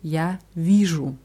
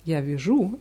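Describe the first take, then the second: First: The stress falls on the I of the verb. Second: The stress falls on the U of the verb. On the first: I see. The speaker calls it right. "Die Betonung ist immer auf dem I" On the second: I knit. The speaker calls it wrong. "also die Betonung auf U"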